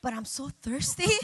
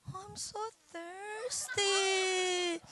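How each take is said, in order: First: Said in the usual way. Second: High, soft, very slow mock whine; wheedling wife. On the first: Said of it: "I'm like". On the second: Wife begs sleepy husband for a drink, mock whine. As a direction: stretch out a pitiful high plea.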